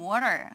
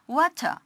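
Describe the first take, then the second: First: The middle T is softened, almost like D. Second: The middle T is a clear, crisp T. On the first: "T 발음을 거의 연화시키라고 우리가 미국식 발음 배울 때" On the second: "T 발음은 굉장히 정직하게"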